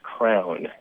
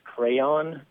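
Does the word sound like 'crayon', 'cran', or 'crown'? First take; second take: crown; crayon. First: The word is said as one syllable, crown. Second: The word is said as two syllables, cray-on. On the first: "it tends to spell out as crown, as in King Arthur" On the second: "It's a word that I would pronounce crayon"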